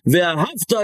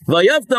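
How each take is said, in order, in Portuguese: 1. A consoante do meio é um som de h. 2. A consoante do meio é um som de y. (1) "em vez de falar" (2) "ao contrário, você vai odiar"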